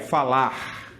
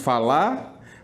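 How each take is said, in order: First: The final R is clearly pronounced. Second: The final R is dropped. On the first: "mas o certo seria falar" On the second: "Nós dizemos falar"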